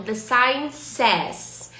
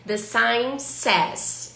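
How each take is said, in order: First: Slow, clear English model; teacher reading the sign's phrase slowly. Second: Very slow, word by word; teacher repeating the phrase even slower. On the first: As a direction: spell it out for the class. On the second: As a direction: stretch every word for learners. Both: Shown as a demonstration. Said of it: "A placa diz".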